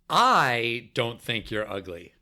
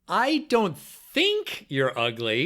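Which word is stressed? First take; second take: I; think. First: The word "I" carries the emphasis. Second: The word "think" carries the emphasis. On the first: "First, the first word" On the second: "each time you're going to emphasize a different word"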